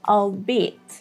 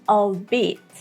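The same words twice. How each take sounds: Both takes have the same delivery.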